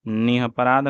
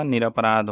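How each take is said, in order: First: निरपराध as "nihaparaadh". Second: Said in the usual way. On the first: Shown as a demonstration. Teacher showing the mistake, निरपराध as "nihaparaadh". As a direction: replace the first r of निरपराध with h. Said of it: "नहीं होगा". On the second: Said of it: "निरपराध होगा".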